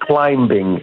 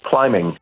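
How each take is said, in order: First: The b sound is pronounced after the m. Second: The b sound is silent after the m. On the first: The speaker calls it wrong. "non è climbing" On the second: The speaker calls it right. "è climbing"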